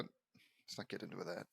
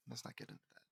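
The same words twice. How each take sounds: First: Said in the usual way. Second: Unvoiced whisper, much softer; whispered aside. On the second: Real, not acted. Narrator dropping a touchy subject to himself, whispered. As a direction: hush it away under your breath.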